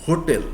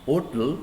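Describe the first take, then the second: First: "hotel" begun with a firm H; sounded H. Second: "hotel" said as "otel"; silent H. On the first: Teacher repeating for students, "hotel" with H sounded. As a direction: pronounce "hotel" with the H heard. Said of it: "If we pronounce like". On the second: Teacher showing the other pronunciation, "hotel" with silent H. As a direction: start "hotel" on the O, no H. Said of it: "But if it is pronounced". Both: Shown as a demonstration.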